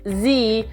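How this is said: The letter is said the American English way. "Z is in the American English"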